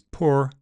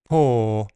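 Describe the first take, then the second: First: The word ends with an audible R sound. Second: The word ends in a single plain vowel. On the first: "You can still hear the R in many accents, including American" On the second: "I wouldn't use a diphthong"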